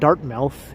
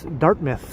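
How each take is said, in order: First: The name is said the way it is spelled. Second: The name is said with a reduced ending. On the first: The speaker calls it wrong. "it's not Dartmouth" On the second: The speaker calls it right. "it's Dartmouth"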